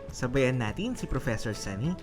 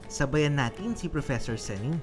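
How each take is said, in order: Both takes have the same delivery.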